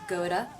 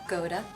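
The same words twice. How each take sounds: The two takes are said the same way.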